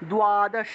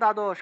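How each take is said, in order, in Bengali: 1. এটা 'dw' বা 'du' ধ্বনি দিয়ে শুরু হয়। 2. এটা একটা সাধারণ 'd' ধ্বনি দিয়ে শুরু হয়। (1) "কিন্তু সংস্কৃতে উচ্চারণ হবে দ্বাদশ" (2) "বাংলায় বললে দ্বাদশ"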